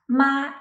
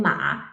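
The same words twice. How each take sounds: First: High, level "ma"; "ma" on one even high pitch; first tone. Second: "ma" dipping low, then rising; low dip and lift on "ma"; third tone. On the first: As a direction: hold "ma" steady and high. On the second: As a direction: trace a U shape on "ma". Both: Shown as a demonstration. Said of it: "A slight change of the tones".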